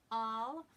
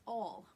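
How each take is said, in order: First: "all" with a loud, wide ah; Boston ah. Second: "All" with a rounded aw; New York aw. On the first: Teacher shows the Boston slip, wide ah. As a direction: open "all" wide and unrounded, louder. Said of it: "sounds a little bit more like Boston". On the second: Teacher offers another example word, New York aw. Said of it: "what's another word we use". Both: Shown as a demonstration.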